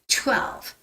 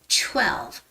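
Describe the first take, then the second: First: The first sound is a tense, ch-like t. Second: The first sound is a tense, ch-like t.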